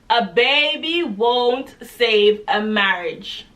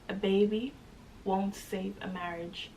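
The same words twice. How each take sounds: First: It is said even more loudly. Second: It is said at a moderate volume.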